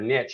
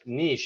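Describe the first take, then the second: First: The word is said the American way. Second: The word is said in a non-American way.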